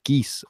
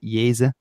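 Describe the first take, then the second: First: The word begins with a hard g sound. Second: The word begins with a y sound. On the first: The speaker calls it wrong. "you might pronounce it geese or something" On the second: The speaker calls it right. "you would actually pronounce it Yeze"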